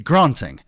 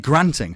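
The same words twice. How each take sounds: First: It is said in a Southern English accent. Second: It is said in an American accent. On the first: "In the South, it would be granting, uh, with that unnecessary R sound in it" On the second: "But in America, it's definitely granting"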